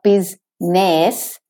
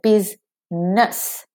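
First: The last syllable has a full clear vowel. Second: The last syllable has a reduced schwa vowel. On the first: The speaker calls it wrong. "So not biz-ness" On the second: The speaker calls it right. "The E in ness, in business, is the schwa"

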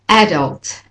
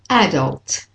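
First: The stress is on the first syllable. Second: The same.

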